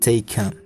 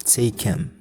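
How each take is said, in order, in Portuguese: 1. A palavra them é reduzida para 'em. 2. A palavra them é reduzida para 'em.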